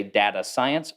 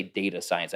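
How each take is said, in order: First: Data science as DAT-uh science; data science, data opening as in dad; short-a data. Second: Data science as DAY-tuh science; data science, data opening like day; long-a data. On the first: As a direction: say data with the a of cat. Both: Shown as a demonstration. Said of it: "I never say data science".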